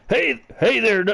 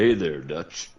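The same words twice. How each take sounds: First: Higher, louder put-on cowboy greeting; Arthur Morgan voice. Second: A hint of a rough cowboy greeting; Arthur Morgan voice. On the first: Friend retrying the Arthur Morgan voice on request. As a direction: ham up a rough outlaw hello. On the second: Other friend takes his turn at Arthur Morgan. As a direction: lightly growl a Texan hello. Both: Shown as a demonstration. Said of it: "Let's hear it one more time".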